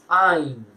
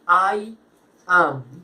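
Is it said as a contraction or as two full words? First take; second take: contraction; full. First: The words merge into one contracted syllable. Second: Two separate full words are said. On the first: "Y con la contracción" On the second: "esta es la forma completa"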